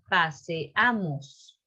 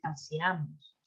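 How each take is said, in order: First: The two vowels are kept as separate syllables. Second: The two vowels merge into one syllable. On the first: The speaker calls it right. "Es paseamos" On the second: The speaker calls it wrong. "No es paseamos"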